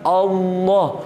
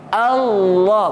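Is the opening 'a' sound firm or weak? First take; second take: weak; firm. First: The opening 'a' is weak and not held. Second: The opening 'a' has a firm, held glottal start. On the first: The speaker calls it wrong. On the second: The speaker calls it right. "A tu kena jaga"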